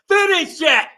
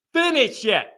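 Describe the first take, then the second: First: Shout. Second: Said in the usual way. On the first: Real, not acted. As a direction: yell it at the team to close the game. Host firing up Notre Dame fans.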